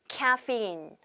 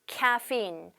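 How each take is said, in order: Both takes have the same delivery.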